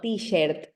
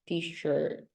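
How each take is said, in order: First: The vowel sounds like a Spanish vowel. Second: The vowel is an English r-colored vowel. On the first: The speaker calls it wrong. "it's not t-shirt" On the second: The speaker calls it right. "no, t-shirt"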